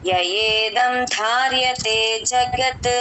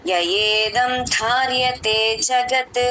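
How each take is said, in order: Both takes have the same delivery.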